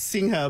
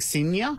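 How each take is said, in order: First: The middle sound is an 'ng' sound. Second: The middle sound is a 'ny' sound. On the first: The speaker calls it right. "No, no, it's Singha" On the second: The speaker calls it wrong. "some people think it's Spanish"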